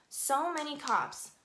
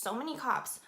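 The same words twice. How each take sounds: First: "so many cops" drawn out slowly; emphatic repeat. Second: Said in the usual way. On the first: Real, not acted. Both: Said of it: "I cannot stress this enough".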